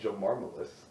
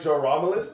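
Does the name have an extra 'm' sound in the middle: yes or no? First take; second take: yes; no. First: The name has an extra 'm' sound inside. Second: The name has no extra 'm' sound inside. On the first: The speaker calls it wrong. "I'm pretty sure I pronounced that wrong" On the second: The speaker calls it right. "It's probably Jaramalus"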